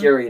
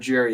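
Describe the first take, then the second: First: The name starts with a hard G sound. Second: The name starts with a J sound. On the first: The speaker calls it right. "I think it's pronounced Gary" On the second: The speaker calls it wrong. "not Jerry"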